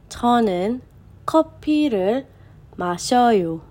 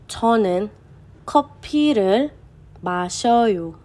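No difference in how they are said.

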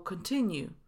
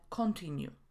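First: The first vowel is a reduced schwa. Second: The first vowel is a full o sound. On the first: The speaker calls it right. "Kontynuować to continue" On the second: The speaker calls it wrong. "a nie continue"

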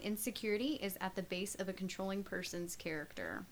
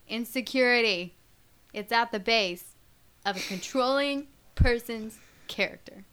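First: It is said at normal volume. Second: It is said loudly and emphatically.

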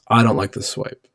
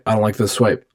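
First: It is said more slowly. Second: It is said very fast.

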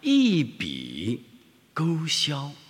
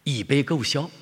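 First: It is said in standard Mandarin pronunciation. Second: It is said in a Xingtai dialect accent.

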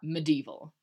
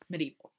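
First: The D sound is hit hard, with strong emphasis. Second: The D sound is said lightly, without emphasis. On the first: The speaker calls it wrong. "Not medieval" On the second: The speaker calls it right. "It's medieval"

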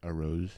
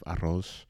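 First: The R is not rolled. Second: The R is rolled. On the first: The speaker calls it wrong. "If you say, like, arroz instead of" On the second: The speaker calls it right. "instead of arroz"

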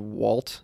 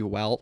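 First: The vowel sounds like the one in 'all'. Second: The vowel sounds like the one in 'Al'. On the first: The speaker calls it wrong. "it shouldn't be walt" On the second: The speaker calls it right. "It should be walt. ... A-L is al"

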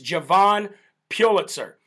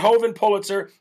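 First: The first name begins with a J sound. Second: The first name begins with an H sound. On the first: The speaker calls it right. "It's Javon Pulitzer" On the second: The speaker calls it wrong. "It's not Hovan Pulitzer"

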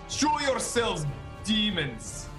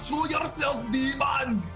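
First: It is spoken without a heavy Austrian accent. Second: It is spoken with a heavy Austrian accent.

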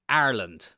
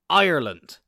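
First: The word begins with an 'ar' sound. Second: The word begins with an 'eye' sound. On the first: The speaker calls it wrong. "I have heard so many people say Ireland. ... Not A-R-E-L-A-N-D" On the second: The speaker calls it right. "I-R-E-L-A-N-D. Ireland"

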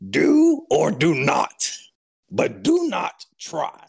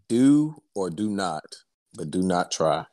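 First: It is said in an imitation of Yoda's voice. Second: It is said in his normal voice.

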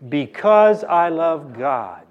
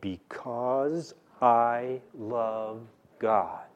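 First: It is said at a normal pace. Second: It is said slowly and deliberately.

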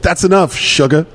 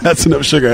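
First: A short pause comes before 'sugar'. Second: The phrase runs on with no pause before 'sugar'. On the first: The speaker addresses someone as 'sugar'. "I really want you to put a comment in that" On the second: The drink has enough sugar in it. "instead of"

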